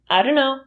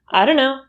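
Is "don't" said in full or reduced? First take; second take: reduced; reduced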